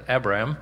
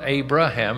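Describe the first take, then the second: First: "Abram" in two syllables, A-bram; short name Abram. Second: "Abraham" in three syllables, A-bra-ham; full name Abraham. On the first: Preacher correcting to the earlier name, "Abram" said in two syllables. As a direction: say "Abram" short, with no ham ending. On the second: Preacher showing the later name, "Abraham" said in three syllables. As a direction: sound out "Abraham" with the ham at the end. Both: Shown as a demonstration. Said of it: "it's not Abraham, it's Abram".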